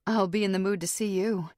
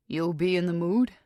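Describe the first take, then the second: First: I'll leaned on, falling teasingly; flirtatious. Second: Said in the usual way. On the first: A narrator's reading. Narrator answering Jarrett, flirtatious before hanging up. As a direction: tease him with a flirt. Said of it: "I'm being flirtatious".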